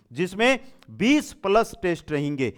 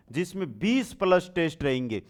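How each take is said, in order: Both takes have the same delivery.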